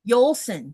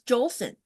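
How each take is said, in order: First: The name starts with a Y sound. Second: The name starts with a J sound. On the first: The speaker calls it right. "It's not the J like you and I are used to doing" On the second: The speaker calls it wrong. "you just assume it's Jolson. It's not"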